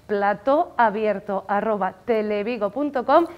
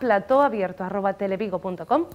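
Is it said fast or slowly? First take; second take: slowly; fast. First: It is said slowly and deliberately. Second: It is said at a normal, quicker pace.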